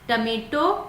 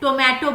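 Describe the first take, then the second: First: The first syllable has a short 'uh' vowel. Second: The first syllable has a long 'oh' vowel. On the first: The speaker calls it right. "टमेटो बोलना है" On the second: The speaker calls it wrong. "बहुत लोग इसे टोमेटो बोलते हैं, गलत pronounce करते हैं"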